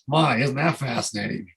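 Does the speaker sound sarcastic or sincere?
sarcastic. It sounds sarcastic and bitter. Complaining about a bad situation. The speaker calls it wrong. "but don't say it like this"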